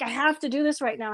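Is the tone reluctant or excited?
excited. It sounds eager and excited.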